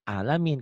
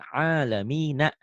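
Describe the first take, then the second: First: The word ends on the n sound. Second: The word ends with an added a vowel. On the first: The reader stops at this word. "Dihentikan alamin" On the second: The reading continues without stopping. "Kalau itu alamina"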